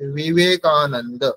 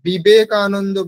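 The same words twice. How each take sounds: First: The 'v' is made with lip and teeth. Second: The 'v' is made with both lips. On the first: The speaker calls it right. "সংস্কৃতে যখন বলবো" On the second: The speaker calls it wrong. "এখানে বিবেকানন্দ বললে হবে না"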